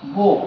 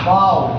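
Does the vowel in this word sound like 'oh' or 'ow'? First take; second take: oh; ow. First: The vowel sounds like 'oh', rhyming with 'go'. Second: The vowel sounds like 'ow', rhyming with 'cow'. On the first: It means a weapon for shooting arrows. "একটা হচ্ছে বো" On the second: It means bending the head down. "এই বো এর উচ্চারণ যেমন বাও"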